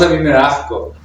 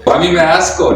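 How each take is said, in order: First: The s in asco sounds like an h. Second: The s in asco is a clear s.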